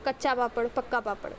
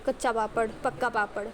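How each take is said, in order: Both takes have the same delivery.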